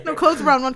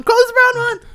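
First: Loud. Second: Much higher, louder shriek; shrieking yell. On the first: Shouted joking retort. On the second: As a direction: scream it out high. Louder repeat. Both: Real, not acted.

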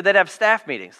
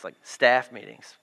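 First: Said in the usual way. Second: Staff meetings dropped much lower and softer; low deadpan. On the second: Shown as a demonstration. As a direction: say it deadpan, knowing.

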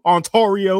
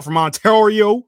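First: Ontario in a playful Southern accent, higher, middle vowel as "or"; Southern kid accent. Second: Said in the usual way. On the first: Shown as a demonstration. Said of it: "I'm gonna say it like a Southern kid". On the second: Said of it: "say it like a Southern kid".

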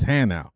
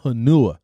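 First: Hanau, said HAN-ow; correcting pronunciation. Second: Hanua, said huh-NOO-uh; wrong pronunciation. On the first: Sergeant correcting the specialist, Hanau as HAN-ow. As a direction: stress the first syllable of Hanau. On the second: Sergeant quoting the mistake, Hanua as huh-NOO-uh. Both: Retold or imitated. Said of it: "the name is pronounced Hanau".

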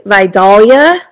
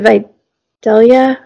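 First: Vidalia said as vye-DAHL-ya; correct local pronunciation. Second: Vidalia said as vye-DELL-ya; mistaken pronunciation. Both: Shown as a demonstration. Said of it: "because I said Vidalia wrong".

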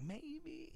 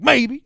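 First: Very soft, high and coy; hopeless romantic. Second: High, loud mock reply; loud blurted answer. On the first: Retold or imitated. Hopeless romantic admits she might date him, soft and high. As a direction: let it out as a tiny hopeful murmur. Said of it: "probably a hopeless romantic". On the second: Asked if she is going on a date, loud blurt. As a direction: blurt the word out.

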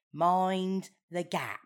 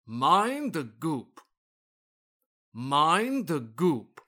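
First: Slow "mind the gap", short a; correct gap. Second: Slow, grand "Mind the goop", oo vowel; goop for gap. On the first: Shown as a demonstration. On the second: Acted. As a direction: say "goop" with a long oo. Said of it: "You said goop this time".

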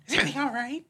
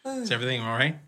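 First: Hammed-up outrage at a friend; mock fury, high and laughing. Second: Said in the usual way. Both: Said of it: "I'm like".

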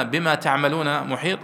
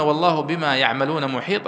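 First: "تعملون" with initial t, second person; reading with ta. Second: "يعملون" with initial y, third person; reading with ya. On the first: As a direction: open "تعملون" on ta. ("تعملون" بتاء في أوله) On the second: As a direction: open "يعملون" on ya. ("يعملون" بياء في أوله) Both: Shown as a demonstration. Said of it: "وقرئ بالياء".

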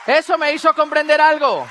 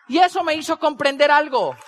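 First: Louder, weightier repeat; hammering the lesson harder; emphatic repeat. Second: Said in the usual way. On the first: Shown as a demonstration. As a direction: drive the point home. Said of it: "repeats louder". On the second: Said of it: "repeats for emphasis".

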